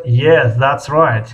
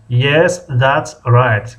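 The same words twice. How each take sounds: First: Said in the usual way. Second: "Yes, that's right" spaced out word by word; slow model phrase. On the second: Shown as a demonstration. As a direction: repeat "Yes, that's right" slowly for learners. Teacher repeats the reply slowly. («Yes, that's right» آهسته و کلمه به کلمه)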